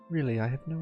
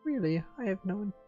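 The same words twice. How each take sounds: First: The voice is pitched lower and more comfortably. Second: The voice is pitched very high, then breaks off.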